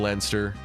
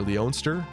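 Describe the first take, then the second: First: The name is pronounced as Leinster. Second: The name is pronounced as Leonster. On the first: The speaker calls it right. "Should have been Leinster" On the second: The speaker calls it wrong. "I hate that pronunciation"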